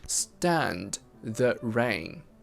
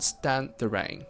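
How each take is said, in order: First: The d at the end of stand is pronounced. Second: The d at the end of stand is dropped. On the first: "You say" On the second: "we drop that d in stand. It becomes"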